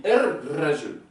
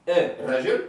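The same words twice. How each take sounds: First: Er rajul with the R doubled; er rajul, long rolled R. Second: Un rajul, no doubled R; un rajul, single R; wrong form. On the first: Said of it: "C'est important de la doubler". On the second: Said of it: "On va pas dire". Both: Shown as a demonstration.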